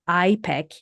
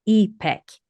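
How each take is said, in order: First: The first vowel is long, as in idol. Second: The first vowel is short, as in ink. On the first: The speaker calls it wrong. "with the I as in the idol" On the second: The speaker calls it right. "similar to the I in the word ink"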